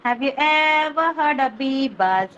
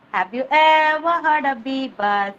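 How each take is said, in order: First: Chanted, slow sing-song question. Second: Slow chant. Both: Shown as a demonstration. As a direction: chant it slowly. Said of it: "phonics rhyme chant".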